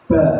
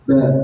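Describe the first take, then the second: First: The syllable is said clearly through the lips. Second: The syllable is said with air through the nose. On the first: The speaker calls it right. "harus jelas ba" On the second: The speaker calls it wrong. "nggak boleh ba ... Itu keluar dari hidung"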